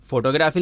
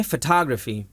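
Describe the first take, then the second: First: فوٹوگرافی as FOH-toh-graa-fee; wrong spelling reading. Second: فوٹوگرافی as fuh-TAH-gruh-fee; correct pronunciation. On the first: Teacher shows how not to read it, FOH-toh-graa-fee. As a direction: say فوٹوگرافی with full O vowels, as spelt. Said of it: "فوٹوگرافی نہیں پڑھتے". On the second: Teacher shows the proper reading, fuh-TAH-gruh-fee. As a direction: stress the second syllable of فوٹوگرافی, first vowel reduced. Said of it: "اس لفظ کو پڑھتے ہیں". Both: Shown as a demonstration.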